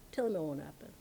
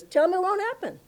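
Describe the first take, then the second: First: Low, soft, matter-of-fact repeat; quiet assurance. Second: High-pitched, insistent retort; emphatic dismissal. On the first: Guru reassures the disciple about his death, quiet and sure. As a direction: drop right down and say it softly. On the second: Guru sends word to the astrologer, emphatic and high. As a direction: pitch it right up and wave it away. Retold guru defies a prediction. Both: Retold or imitated.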